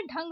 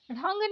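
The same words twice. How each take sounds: First: ढंग opening on aspirated DH; correct stopped ढ. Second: ढंग opening on flapped ढ़; wrong flapped ढ़. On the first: Teacher correcting learners, stopped ढंग. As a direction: start ढंग with firm ढ. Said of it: "होता है". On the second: Teacher showing learners the mistake, flapped ढंग. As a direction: flick into ढंग. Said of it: "नहीं होता है". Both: Shown as a demonstration.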